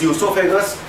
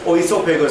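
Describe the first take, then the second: First: The word begins with an "ee" sound. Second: The word begins with an "oh" sound. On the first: The speaker calls it right. "This is esophagus" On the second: The speaker calls it wrong. "Spelling starts with O. Don't pronounce as oesophagus"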